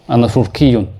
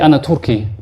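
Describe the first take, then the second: First: The word ends with its full case ending. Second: The word ends without a final case vowel. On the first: "I'm pronouncing every haraka" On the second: "You can say أنا Turki"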